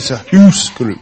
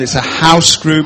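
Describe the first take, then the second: First: House is said with a Scottish 'oo' vowel. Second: House is said with an English 'ow' vowel.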